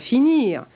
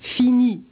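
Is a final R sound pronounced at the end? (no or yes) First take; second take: yes; no. First: The word ends with a final R sound. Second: The word ends without a final R sound. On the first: This is the form not used then. "et non pas finir" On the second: This is how it was said in the seventeenth century. "où l'on prononce fini et non pas finir"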